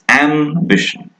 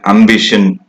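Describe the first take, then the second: First: The first vowel matches the 'a' in apple. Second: The first vowel differs from the 'a' in apple. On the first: The speaker calls it right. "It's ambition" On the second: The speaker calls it wrong. "In Indian speech, we, we hear ambition sometimes"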